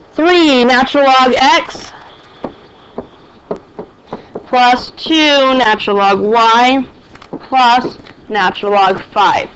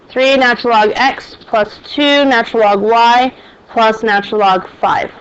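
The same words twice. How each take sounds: First: Slow, clear dictation pace. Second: Said in the usual way. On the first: Shown as a demonstration. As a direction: read it out slowly for notes. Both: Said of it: "make sure you write it down".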